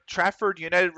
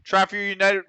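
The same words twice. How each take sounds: First: Said in the usual way. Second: Trafford United run together, the D of Trafford swallowed; words bundled together. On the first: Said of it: "You'll have to excuse my accent". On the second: Real, not acted. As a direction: stumble through Trafford United, blurring the word endings. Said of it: "bundling words into each other".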